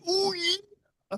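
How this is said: It imitates Otis saying oh yeah.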